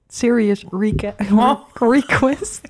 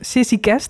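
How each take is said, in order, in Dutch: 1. Elke klank is duidelijk en volledig uitgesproken. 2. Klanken vallen weg, dus het klinkt afgebeten.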